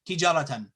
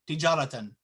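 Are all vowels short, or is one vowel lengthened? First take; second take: all short; all short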